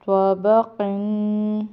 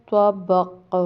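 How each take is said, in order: First: توبہ قن read slowly, ending on a clear nun sound; slow continuous reading, توبہ قن; joined reading with tanween. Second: توبق with the final qaf stilled and slightly bounced; pausal form with qalqala. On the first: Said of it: "آگے وقف توبق". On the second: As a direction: stop on the qaf of توبق and give it a little echo. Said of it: "اس کو قلقلہ کریں گے، تھوڑا سا ہلائیں گے". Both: Shown as a demonstration.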